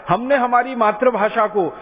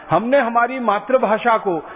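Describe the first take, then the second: No difference in how they are said.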